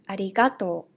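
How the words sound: It has the Hiroshima dialect pitch accent.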